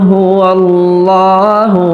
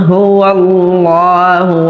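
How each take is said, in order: No difference in how they are said.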